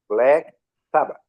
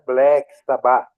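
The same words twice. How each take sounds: First: Sabbath is stressed on its first syllable. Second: Sabbath is stressed on its last syllable. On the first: The speaker calls it right. "como uma paroxítona" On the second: The speaker calls it wrong.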